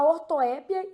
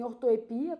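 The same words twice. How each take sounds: First: Ortoépia with open, stressed É; ortoépia, accent landing on the open É. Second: Ortoepia with stressed I in "pia"; ortoepia, accent landing on the I. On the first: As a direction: stress the third syllable of ortoépia, "É". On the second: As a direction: stress the next-to-last syllable, orto-e-PI-a. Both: Shown as a demonstration. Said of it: "a gente pode falar também ortoepia".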